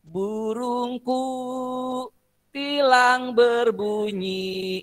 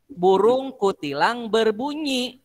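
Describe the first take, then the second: First: Slow, pause after burungku then tilang berbunyi; teacher repeating the wrong split as a warning; wrong phrase break. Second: Burung kutilang berbunyi said slowly as one unbroken phrase; teacher showing the right way to group the words; correct phrasing. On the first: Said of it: "salah menempatkan frasenya". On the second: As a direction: keep burung kutilang together, no break. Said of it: "Kan harusnya". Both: Shown as a demonstration.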